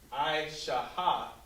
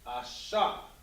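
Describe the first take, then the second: First: A ha sound is pronounced at the end. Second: No ha sound is pronounced at the end. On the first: The speaker calls it wrong. "You're not going to have to say" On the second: The speaker calls it right. "instead you will say"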